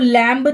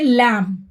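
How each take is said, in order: First: A b sound is heard after the m. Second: The word ends on the m, no b. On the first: The speaker calls it wrong. "इसको लैम्ब नहीं पढ़ेंगे" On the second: The speaker calls it right. "इसको पढ़ते हैं लैम"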